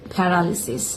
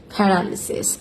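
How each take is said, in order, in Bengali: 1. তৃতীয় সিলেবলে ছোট 'ih' স্বরধ্বনি আছে। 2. তৃতীয় সিলেবলে ছোট 'ih' স্বরধ্বনি আছে।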